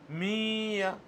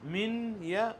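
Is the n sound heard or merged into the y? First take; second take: merged; heard. First: The n merges into the following y sound. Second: The n is pronounced separately before the y. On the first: The speaker calls it right. "ये सही है" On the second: The speaker calls it wrong. "गलत है"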